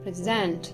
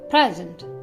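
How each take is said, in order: First: The stress is on the second syllable. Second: The stress is on the first syllable. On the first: It is used as a verb. "the verbs on the second" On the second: It is used as a noun. "the nouns stress is placed on the first syllable"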